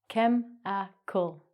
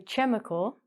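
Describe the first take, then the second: First: The word begins with a k sound. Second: The word begins with a ch sound. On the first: The speaker calls it right. "We take out the H sound. The H is silent" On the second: The speaker calls it wrong. "We don't say chemical"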